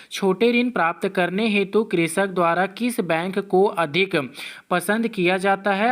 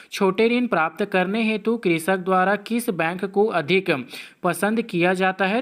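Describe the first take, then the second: Both takes have the same delivery.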